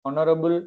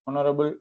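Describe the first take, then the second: Both takes have the same delivery.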